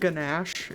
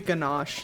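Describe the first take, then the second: First: The ending sounds like the word gnash. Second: It is said like the chocolate ganache. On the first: The name sounds like an orc's name. The speaker calls it wrong. "it sounds like an orc. Like you're ganashing your teeth" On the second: The name refers to the chocolate. The speaker calls it right. "it's supposed to be ganache, like the, the chocolate"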